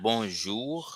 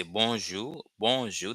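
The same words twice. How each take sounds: First: "bonjour" op zijn Frans, met een neusklinker en een zachte r aan het eind; French bonjour. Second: "bonjour" uitgesproken als "bonzjou", zonder r; Haitian bonjour. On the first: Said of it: "which is French". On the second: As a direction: Creoolse "bonjour" met een open o en geen slot-r. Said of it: "this is the pronunciation". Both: Shown as a demonstration.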